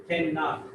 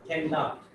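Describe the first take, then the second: Both takes have the same delivery.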